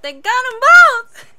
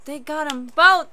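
First: High, loud exclamation; excited shout. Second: Said in the usual way. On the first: Real, not acted. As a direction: shout it out in amazement. Repeats it in excitement.

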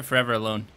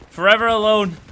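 First: Said in the usual way. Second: Higher, louder put-on forlorn cry; mock lament. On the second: Gamer left without his team, mock lament. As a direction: wail it in a hammed-up voice.

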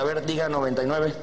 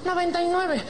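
First: Low, routine doctor's instruction; understated doctor at work. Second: Very high, camp reply; mock-effeminate patient. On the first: Acted. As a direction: ask it plainly in a lower voice. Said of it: "Se lo pone en la espalda". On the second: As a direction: repeat it obediently in a mincing high voice. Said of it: "llega un putito".

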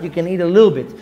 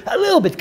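First: Said in the usual way. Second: "a little bit" jumps way up high, squeezed small; tiny squeak. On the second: Shown as a demonstration. Rabbi shrinks the Shabbat portion, high tiny voice.

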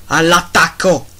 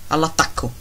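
First: Louder rallying shout; battle cry. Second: Said in the usual way. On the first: Acted. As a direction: send the troops charging. Urging wolves to attack.

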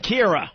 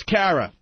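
First: "Kira" with an "ee" sound first; corrected name. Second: "Kara" with an open "a" as in "care"; misread name. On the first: Host repeats the caller's correction, corrected to "Kira". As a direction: say "Kira" with the first syllable like "keer". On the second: Host reads out the caller's name from Texas, misread as "Kara". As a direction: say "Kara" with the first syllable like "care". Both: Real, not acted. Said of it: "It's Kira".

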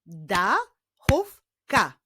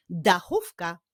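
First: "Dachówka" as da, chów, ka with pauses; "Dachówka" slowly, syllable by syllable; split into syllables. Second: Said in the usual way. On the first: Shown as a demonstration. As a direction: clap out "Dachówka" in three slow beats.

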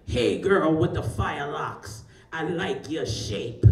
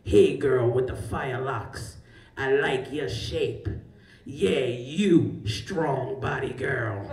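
First: Slow, lazy man's catcall; mock slow come-on from a man on the beach. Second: Slow, lower, drawn-out pickup line; the stranger's drawn-out catcall, repeated. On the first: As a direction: stretch it out like a smooth stranger. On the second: Retold or imitated. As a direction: lay the come-on on thick and slow. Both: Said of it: "and the voice is like".

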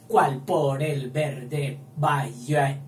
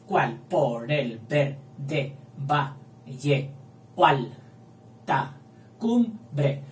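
First: Said in the usual way. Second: "¿Cuál por el verde valle o alta cumbre?" very slow, joining "o alta" into one syllable; slow deliberate scansion with synalepha; careful synalepha. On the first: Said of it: "hay que hacerlo bien". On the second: Shown as a demonstration. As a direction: scan it slowly, merging the vowels. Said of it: "hay sinalefa y hay que hacerlo bien".

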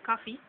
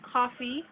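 First: "coffee" said KAH-fee; Jamaican pronunciation. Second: Said in the usual way. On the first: Shown as a demonstration. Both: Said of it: "we would say coffee".

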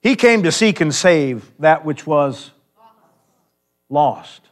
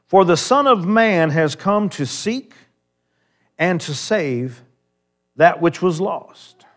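First: Louder, slow, with a pause before "lost"; slow emphatic verse. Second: Slow, weighty delivery, every word of "seek" and "save" leaned on; slow proclaimed verse. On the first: Preacher repeating the key verse to close, slow and louder. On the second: Preacher driving home the key verse, slow and deliberate. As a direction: land the key verse slowly for the church. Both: Acted.

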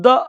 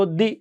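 First: "the" said "thuh" with a short schwa. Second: "the" said "thee" with a long ee. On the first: Teacher contrasting the two sounds, short "thuh". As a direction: clip "the" to "thuh". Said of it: "consonant সাউন্ডের আগে উচ্চারণ করব the". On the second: Teacher contrasting the two sounds, long "thee". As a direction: stretch "the" into "thee". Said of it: "vowel সাউন্ডের আগে উচ্চারণ করব the". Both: Shown as a demonstration.

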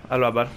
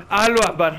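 First: Said in the usual way. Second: Loud mock battle cry. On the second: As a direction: shout it as you charge. Grito de ataque en broma. (grito de guerra burlón)

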